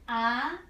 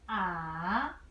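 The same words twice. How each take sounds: First: The pitch rises from middle to high. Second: The pitch starts low, dips, then rises. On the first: "Second tone. ... Like you have a question" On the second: "Third tone. You start from low position"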